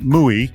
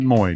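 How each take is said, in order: First: The name is said with a Spanish vowel sound. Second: The name is said with an English vowel sound. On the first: The speaker calls it wrong. "not Muy, because Nick is not Spanish" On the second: The speaker calls it right. "you pronounce it Moy"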